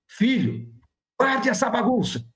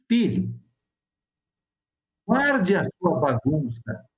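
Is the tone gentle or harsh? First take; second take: harsh; gentle. First: It is said in a harsh, angry tone. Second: It is said in a calm, gentle tone. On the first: The speaker calls it wrong. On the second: The speaker calls it right.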